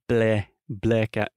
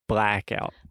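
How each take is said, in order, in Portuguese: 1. A primeira vogal é dita com a boca menos aberta. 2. A primeira vogal é dita com a boca bem aberta. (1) "So it's not blackout" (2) "but blackout"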